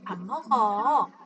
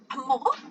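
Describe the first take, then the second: First: It ends with an inviting, suggesting tune. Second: It ends with an asking, questioning tune. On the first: It proposes eating together. "우리 같이 밥 먹자 라는 얘기를 할 때는" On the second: It asks whether someone is eating. "밥 먹는지 물어보고 싶어"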